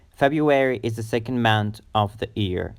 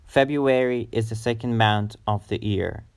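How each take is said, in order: Both takes have the same delivery.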